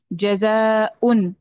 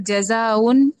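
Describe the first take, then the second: First: Slow جزاؤن with a clean glottal catch; correct, slow and clear. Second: جزاؤن run together with no stop; wrong reading demo. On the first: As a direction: stretch جزاؤن and cut it at the hamza. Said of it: "واضح طور پہ ادا ہوگا". (جزاؤن کی واضح ادائیگی) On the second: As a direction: blur the hamza in جزاؤن. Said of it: "جزاؤن نہیں". (جزاؤن غلط ادائیگی) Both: Shown as a demonstration.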